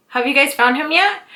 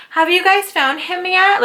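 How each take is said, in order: First: Said in the usual way. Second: Mock sweet question, high and slow; mocking neighbor. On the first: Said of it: "the neighbor kept asking". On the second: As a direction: parody her fake innocent concern. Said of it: "for you just to be like".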